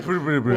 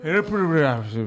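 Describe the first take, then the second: First: It is said fast and naturally. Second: It is said slowly and slurred, like drunk.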